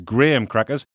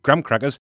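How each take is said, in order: First: Graham is pronounced the British way. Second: Graham is pronounced the American way. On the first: This is how the British say it. The speaker calls it right. "when it's" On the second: This is how Americans say it. The speaker calls it wrong. "they pronounce it"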